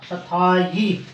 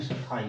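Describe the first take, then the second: First: सथाई drawn out as "sathaa-yee"; slow सथाई with a "yee" ending; correct pronunciation. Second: सथाई ending in a bare "ee", no y; quick, mistaken सथाई without a y glide; wrong pronunciation. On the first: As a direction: put a clear y before the final ee of सथाई. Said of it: "यानी ये शुद्ध होगा". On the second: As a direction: say सथाई as "sathaa-ee". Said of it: "ये गलत होता है". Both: Shown as a demonstration.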